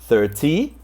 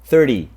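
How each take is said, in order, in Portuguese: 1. É falada de um jeito não americano. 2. É falada do jeito americano. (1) "Você pode falar thirty" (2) "o americano sempre fala thirty"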